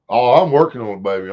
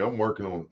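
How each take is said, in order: First: Calls it out loud and firm; loud reassurance. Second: Softer, muttered to himself; quiet repeat. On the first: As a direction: declare it loudly to chat. Replying to chat, then repeating. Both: Real, not acted.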